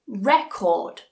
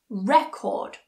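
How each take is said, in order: First: The stress is on the first syllable. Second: The same.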